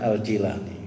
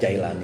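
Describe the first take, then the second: First: The first vowel is said as 'ee'. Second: The first vowel is said as 'ai'. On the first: The speaker calls it right. "Sebenarnya Al-Jilani" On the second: The speaker calls it wrong. "Jailani itu nama plesetan sebenarnya"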